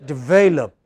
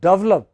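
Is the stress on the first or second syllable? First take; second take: second; first. First: The stress is on the second syllable. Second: The stress is on the first syllable. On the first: The speaker calls it right. "It is this which is stressed" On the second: The speaker calls it wrong. "then your listeners think you are talking about double up"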